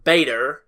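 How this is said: It is said in an American accent.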